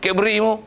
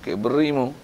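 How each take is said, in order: First: Mock-angry jab, Cadbury mu thrown out; a touch of irritation; a little angry. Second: Said in the usual way. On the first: Shown as a demonstration. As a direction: scold lightly. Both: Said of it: "Marah sikit".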